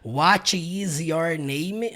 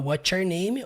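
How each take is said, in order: First: Each word is said separately and in full. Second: What and is are joined into one syllable. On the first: The speaker calls it wrong. "na prática ninguém fala desse jeito" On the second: The speaker calls it right. "você vai ter que aprender a falar"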